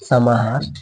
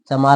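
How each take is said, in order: First: The middle h sound is clearly pronounced. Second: The middle h sound is dropped. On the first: The speaker calls it right. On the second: The speaker calls it wrong.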